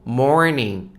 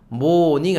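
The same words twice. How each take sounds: First: The R sound after the vowel is pronounced. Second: The R sound after the vowel is dropped. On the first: The speaker calls it right. "영어 발음하면 morning이 됩니다" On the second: The speaker calls it wrong. "morning 아니고"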